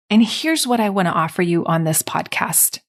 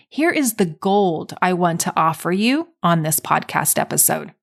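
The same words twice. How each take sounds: First: Said in the usual way. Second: A touch of drama on the gold; more dramatically. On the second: Shown as a demonstration. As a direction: make it sound like a big reveal. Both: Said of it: "say that a little more dramatically".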